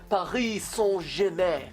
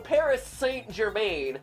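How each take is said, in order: First: It is said with a French pronunciation. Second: It is said with an English pronunciation.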